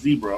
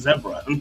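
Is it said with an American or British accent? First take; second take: American; British. First: It is said in an American accent. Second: It is said in a British accent.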